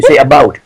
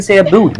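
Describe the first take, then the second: First: Said in the usual way. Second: "boot" with an oo vowel; higher, oo sound in "boot"; mock Canadian "boot". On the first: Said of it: "We say about". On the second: Shown as a demonstration. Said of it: "We don't fucking say a boot".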